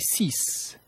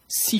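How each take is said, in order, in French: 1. Le mot se termine par un son S bien net. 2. Le mot se termine sur la voyelle, sans son S. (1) "Le X est prononcé comme un S" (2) "Le X n'est pas prononcé"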